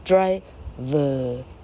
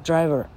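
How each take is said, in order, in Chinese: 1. 最后的元音不卷舌发。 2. 最后的元音是卷舌发的。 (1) "而不是driver，不是这样念" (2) "你那时候舌头是卷的"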